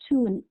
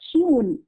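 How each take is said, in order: First: No y glide follows the t sound. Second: A y glide follows the t sound. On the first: This form carries less prestige. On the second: This form carries more prestige.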